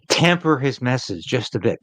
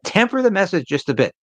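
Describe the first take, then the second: First: Said in the usual way. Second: Higher, lightly voiced party moderate urging "Temper the message"; mocking the moderates. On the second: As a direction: parrot the red Tory advice in a mock voice. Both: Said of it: "by his red Tory faction".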